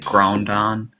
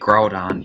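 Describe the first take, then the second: First: An extra N sound comes before the D. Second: There is no N sound before the D. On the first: The speaker calls it wrong. "there's no extra N there" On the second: The speaker calls it right. "whenever he would try to say Groudon"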